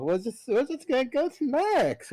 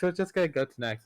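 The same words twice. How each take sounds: First: Mock-cheery high resignation. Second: Said in the usual way.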